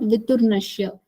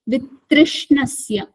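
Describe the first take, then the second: First: The middle part sounds like 'tur'. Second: The middle part sounds like 'trish'. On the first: The speaker calls it wrong. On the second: The speaker calls it right.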